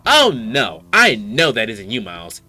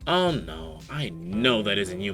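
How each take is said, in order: First: It is said in a sassy tone. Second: It is said in a plain tone.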